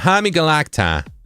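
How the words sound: It is said in a strong East Coast accent. "So East Coast accent"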